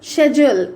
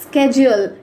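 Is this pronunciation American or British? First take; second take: British; American. First: It is said the British way. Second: It is said the American way. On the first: "Schedule is according to British English" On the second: "schedule is according to American English"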